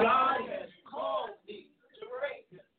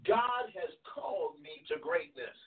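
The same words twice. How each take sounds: First: It is said with strong, emphatic conviction. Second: It is said in a plain, casual way.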